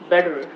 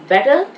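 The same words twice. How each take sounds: First: It is said in an American accent. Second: It is said in an Indian accent. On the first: "Better becomes better" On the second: "Better becomes better"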